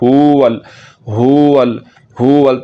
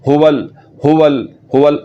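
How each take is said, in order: First: The first vowel is drawn out long. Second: The first vowel is kept short. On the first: The speaker calls it wrong. "पेश को लंबा किया तो फिर ये वाव साकिन के बाद निकल आएगी" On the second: The speaker calls it right. "इसको लंबा नहीं करना है"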